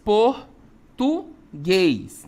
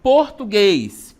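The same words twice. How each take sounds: First: "português" as POR, TU, GUÊS with long pauses; syllable separation. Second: "português" in one piece, loud and drawn out; whole word. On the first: Teacher separating the example for pupils, "português" syllable by syllable. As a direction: break "português" into three very slow syllables. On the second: Teacher presenting the next example word, loud unbroken "português". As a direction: say "português" slowly and loudly without breaks. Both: Shown as a demonstration.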